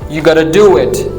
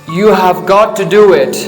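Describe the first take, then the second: First: 'Have got to' is squeezed into a quick 'gotta'. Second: Every word of 'have got to' is said fully.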